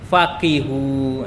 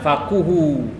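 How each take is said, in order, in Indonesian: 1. Vokal setelah q adalah i. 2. Vokal setelah q adalah u. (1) "Bila kasrah baris bawah" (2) "Dhammah itu baris depan faquhu"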